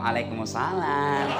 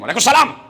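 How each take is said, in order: First: It is said in a soft, lilting, drawn-out voice. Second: It is said in a firm, curt, flat voice.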